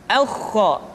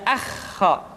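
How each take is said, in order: First: "aukho" with heavy rounded first vowel; thick kha. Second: "akho" with thin open first a; thin kha, mistaken. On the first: Teacher giving the correct form, thick sound. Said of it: "menebal suaranya". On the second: Teacher showing what to avoid, thin sound. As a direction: leave the a of "akho" unrounded. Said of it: "tidak akho". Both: Shown as a demonstration.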